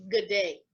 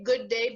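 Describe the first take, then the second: First: "good day" run together, falling at the end; reduced Australian pronunciation. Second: Said in the usual way. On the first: Shown as a demonstration. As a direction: say "good day" the Aussie way, first word shortened. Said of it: "but he says "good day". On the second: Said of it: "he doesn't say "good day," but".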